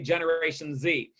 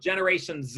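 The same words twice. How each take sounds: First: Z is said the American way, as zee. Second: Z is said the Canadian way, as zed.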